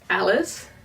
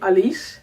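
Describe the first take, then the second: First: The name is pronounced the English way. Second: The name is pronounced the Dutch way.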